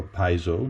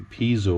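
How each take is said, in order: First: "piezo" said as PIE-zo; first syllable of "piezo" like "pie"; PIE-zo pronunciation. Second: "piezo" said as PEE-zo; first syllable of "piezo" like "pea"; PEE-zo pronunciation. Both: Shown as a demonstration. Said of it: "depending on how you pronounce it".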